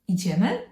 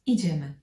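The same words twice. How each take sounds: First: The pitch rises at the end of the word. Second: The pitch falls at the end of the word. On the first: It is a suggestion asking whether to go. "with rising intonation, it's a proposal, suggestion" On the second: It is a decision to go now. "it's more like let's go"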